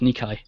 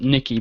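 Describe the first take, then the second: First: The word ends with an 'eye' sound. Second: The word ends with an 'ee' sound. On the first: "I'd imagine it was Nikai" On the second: "it sounds like Nikki"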